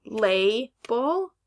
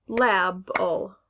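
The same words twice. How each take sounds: First: "label" slowly as LAY, pause, BUL; long A split. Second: "label" drawn out as LAB-ul; short A split. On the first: Teacher offering students a choice, "label" split as lay-bul. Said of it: "break between the two syllables". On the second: Teacher offering the wrong option, "label" as lab-ul. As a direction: say "label" slowly with the a of cat, lab-ul. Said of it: "So is this word label". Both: Shown as a demonstration.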